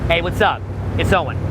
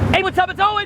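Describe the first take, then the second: First: The greeting is delivered with moderate, natural energy. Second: The greeting is delivered with too much energy. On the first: The speaker calls it right. "right? Notice the difference" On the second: The speaker calls it wrong. "One's too high"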